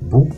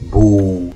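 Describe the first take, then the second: First: The vowel is short. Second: The vowel is long. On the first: "Pour la brève" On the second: "Et la langue"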